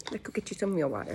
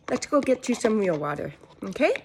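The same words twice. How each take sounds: First: Quiet, fast aside to herself; quick mutter. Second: Said in the usual way. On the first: Real, not acted. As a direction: mumble it quickly under breath.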